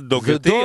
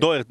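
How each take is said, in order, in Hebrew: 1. העיצור האמצעי הוא צליל k קשה. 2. העיצור האמצעי הוא צליל h רך. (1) "יש שדרים עם מבטא שיוצא להם ה-K" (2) "זה דוהרטי"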